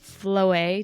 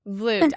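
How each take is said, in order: First: The surname is pronounced in a French way. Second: The surname is pronounced in a Dutch way. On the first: The speaker calls it wrong. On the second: The speaker calls it right.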